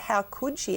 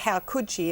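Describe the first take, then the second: First: It sounds sympathetic and bewildered. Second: It sounds condemning and disapproving. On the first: The speaker wonders what desperation drove the mother. "as in what level of depression or desperation could possibly drive a mother" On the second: The mother is being blamed for what she did. "in a censorious way"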